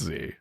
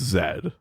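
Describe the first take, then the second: First: The letter is said as zee. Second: The letter is said as zed. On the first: This is the American way of naming the letter. The speaker calls it wrong. "Only Americans say that it's Z" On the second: This is how the rest of the English-speaking world names the letter. The speaker calls it right. "The rest of the English-speaking world has spoken. It's Z"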